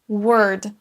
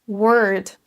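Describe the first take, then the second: No difference in how they are said.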